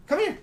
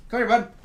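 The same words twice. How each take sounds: First: Very high squeaky rising call; squeaky dog call. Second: Raised coaxing call; calling the dog. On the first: Owner luring Frank to the camera, very high squeaky call. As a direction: squeak it up to lure him in. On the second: Owner calling Frank to the camera, raised coaxing call. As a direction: coax the dog over, a bit higher. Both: Real, not acted.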